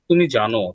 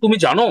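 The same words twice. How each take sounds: First: It is said as a plain statement. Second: It is said as a question.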